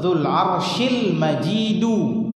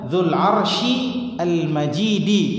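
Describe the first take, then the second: First: The final word ends with a 'u' vowel. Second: The final word ends with an 'i' vowel. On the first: The glory describes God. "berarti Al-Majidu di sini adalah Allah" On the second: The glory describes the throne. "Kalau dia Al-Majidi, Al-Majid ini sifatnya arsy"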